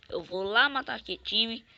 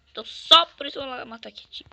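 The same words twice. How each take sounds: First: Said in the usual way. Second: Fast loud declaration. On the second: Real, not acted. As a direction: rush it out, pumped. Gamer hyping himself to attack.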